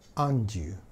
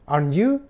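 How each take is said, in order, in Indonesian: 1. Nada turun di akhir tag. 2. Nada naik di akhir tag. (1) "nadanya nadanya saya turunkan aren't you" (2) "kalau nada saya naikkan"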